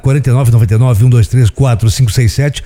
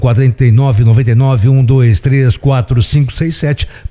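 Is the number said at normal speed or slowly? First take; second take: normal; slowly. First: The number is said at normal speed. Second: The number is said very slowly.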